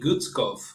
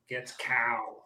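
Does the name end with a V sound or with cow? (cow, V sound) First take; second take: V sound; cow. First: The name ends with a V sound. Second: The name ends with the syllable cow. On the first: This is the original German form. "the original German would be Guetzkow" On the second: This is how most people say it. "people usually say it with they end it with cow"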